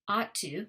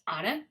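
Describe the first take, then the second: First: Both words are said fully and separately. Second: The words blend into one reduced word.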